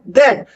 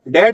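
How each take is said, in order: First: It starts with a soft th sound. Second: It starts with a hard d sound. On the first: The speaker calls it right. "वो है दैट" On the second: The speaker calls it wrong. "दैट नहीं है वो"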